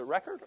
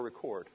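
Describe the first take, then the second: First: Record as "REK-erd", stressed at the front; first-syllable stress. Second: Record as "ri-KORD", stressed at the back; second-syllable stress. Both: Shown as a demonstration. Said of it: "Is it Record or Record".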